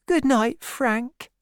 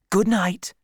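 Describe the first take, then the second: First: Put-on high young woman's goodnight; high-voiced sweetheart taking leave; girl's farewell. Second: Lightly voiced sergeant, higher goodnight; a hint of a soldier dismissing someone; soldier's farewell. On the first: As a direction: say goodnight meekly, pitched way up. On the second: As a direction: bid a brisk goodnight. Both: A narrator's reading.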